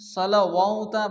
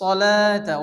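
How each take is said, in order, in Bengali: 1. মাঝখানে 'w' ধ্বনি উচ্চারণ করা হয়। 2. মাঝখানে কোনো 'w' ধ্বনি উচ্চারণ করা হয় না। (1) "অনেকে পড়ে, এটা পড়া যাবে না" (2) "ওয়াও বাদ যাবে"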